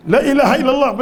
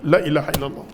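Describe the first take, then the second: First: Higher, louder proclamation of faith; raised declaration. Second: Said in the usual way. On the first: Shown as a demonstration. Preacher proclaiming the shahada to the crowd, raised. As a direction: lift it up as a cry of faith. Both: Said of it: "repeats the phrase".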